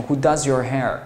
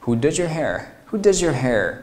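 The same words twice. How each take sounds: First: "does your" with a clean z, words apart; unlinked reading. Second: "does your" blended into "duh-jur"; linked reading. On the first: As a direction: keep "does" and "your" separate. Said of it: "你要读成". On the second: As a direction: run "does your" together with a j-like sound. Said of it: "能把这个句子读成". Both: Shown as a demonstration.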